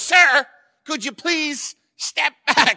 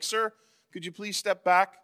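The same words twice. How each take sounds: First: The request sounds bossy and scolding. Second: The request sounds neutral and polite.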